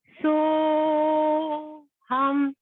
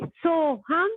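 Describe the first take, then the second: First: It is said very slowly. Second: It is said at medium speed.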